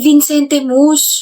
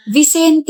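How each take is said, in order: First: Vicente Mus drawn out, with a nasal n in vin-sen-te and Mus tacked on; mocking the nickname. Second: Vicente said short and clean, vi-SEN-te, nothing added; just the name Vicente, plainly; correct name. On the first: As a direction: slowly echo his silly Vicente Mus. (ginagaya ang tawag na Vicente Mus) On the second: Shown as a demonstration. (tamang bigkas ng Vicente) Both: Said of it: "hindi Vicente Mus".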